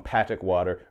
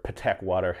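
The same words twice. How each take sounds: First: "Patek" with a short a, PAT-ik; "Patek" rhyming roughly with attic; first pronunciation attempt. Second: "Patek" as puh-TEK; "Patek" with reduced first vowel and a clear TEK; alternative pronunciation. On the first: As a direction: say "Patek" as PAT-ik, front-stressed. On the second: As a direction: stress the second syllable of "Patek", puh-TEK. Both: Shown as a demonstration. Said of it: "however you say it".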